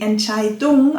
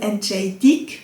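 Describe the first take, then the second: First: The word ends with an 'ung' sound. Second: The word ends with an 'ig' sound. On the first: This is the standard German form. "auf Hochdeutsch" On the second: This is the Swiss German form. "auf Schweizerdeutsch"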